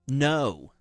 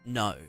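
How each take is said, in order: First: It is said in an imitated American accent. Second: It is said in the speaker's ordinary accent. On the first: "That's what Americans sound like" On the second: "If I say no"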